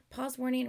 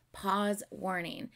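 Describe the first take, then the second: First: Said in the usual way. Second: Slow, spaced-out warning; deliberate announcement. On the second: Real, not acted. Reactor warning viewers about pausing, slow deliberate announcement. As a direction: announce it slowly, word by word.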